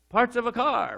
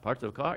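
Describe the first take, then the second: First: The voice falls at the end, like a statement. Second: The voice rises at the end, like a question. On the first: The speaker is confident in the answer. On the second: The speaker is unsure of the answer.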